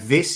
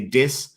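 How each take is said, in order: First: It begins with a th sound. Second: It begins with a d sound. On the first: "he can't say like uh, this" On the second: "He'd say dis"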